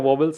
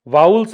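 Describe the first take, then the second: First: The first syllable sounds like 'voh'. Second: The first syllable rhymes with 'cow'. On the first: The speaker calls it wrong. "वोवेल्स नहीं है" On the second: The speaker calls it right. "वाउल्स है"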